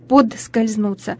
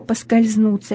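First: An extra t sound follows the first syllable. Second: No t sound follows the first syllable. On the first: The speaker calls it wrong. "звук «д», как в слове «подскользнуть», вернее «т»" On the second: The speaker calls it right. "вместо «поскользнуться»"

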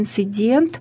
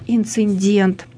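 First: It is said without an extra middle sound. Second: It is said with an extra middle sound. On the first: The speaker calls it right. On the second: The speaker calls it wrong.

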